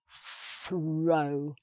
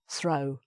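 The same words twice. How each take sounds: First: The word is said slowly with heavy emphasis. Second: The word is said at normal speed, unemphasized.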